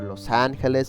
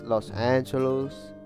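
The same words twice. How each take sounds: First: It is said with a Spanish accent. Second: It is said with an English accent.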